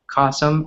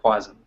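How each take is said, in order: First: The name ends rhyming with awesome. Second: The name ends not rhyming with awesome. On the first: The speaker calls it right. "my last name rhymes with awesome" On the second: The speaker calls it wrong. "a lot of Americans can't uh, remember, so they say Quasum"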